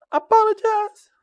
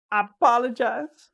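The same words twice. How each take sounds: First: High-pitched apology. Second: Said in the usual way. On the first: Real, not acted. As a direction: apologize pitched much higher.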